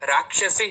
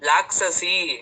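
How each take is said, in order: First: The word begins with an R sound. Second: The word begins with an L sound. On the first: The speaker calls it right. "ರಾಕ್ಷಸಿ ಹೇಳ್ಬೇಕು" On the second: The speaker calls it wrong. "ರಕಾರ ಬರಲ್ಲ"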